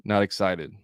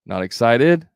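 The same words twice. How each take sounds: First: "excited" dropping off at the end; falling statement. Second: "excited" louder, climbing at the end; questioning lift on "excited"; rising inflection. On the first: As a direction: say "Not excited" as a confirmation, no lift. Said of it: "It's a statement". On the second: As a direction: make "Not excited" a question with an upward tail. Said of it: "That's the inflection". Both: Shown as a demonstration.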